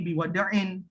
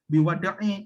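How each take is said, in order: First: The word ends with an added n sound. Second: The word ends on a vowel, without n. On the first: The speaker calls it right. "tapi biwadain karena tidak ada di awal huruf alif lam" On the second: The speaker calls it wrong. "bukan biwadai"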